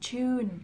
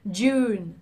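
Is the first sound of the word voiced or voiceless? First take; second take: voiceless; voiced. First: The first sound is a voiceless ch sound. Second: The first sound is a voiced j sound. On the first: The speaker calls it wrong. "nó hơi giống từ ch, ch mà không phải là j" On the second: The speaker calls it right. "mình phải rung, mình phải bật hơi mạnh hơn"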